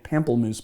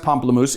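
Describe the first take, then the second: First: The word is given an Americanized pronunciation. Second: The word is given a French pronunciation. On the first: The speaker calls it wrong. "I was calling it pamplemousse before, which I guess is a Americanized version" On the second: The speaker calls it right. "It is pronounced pamplemousse"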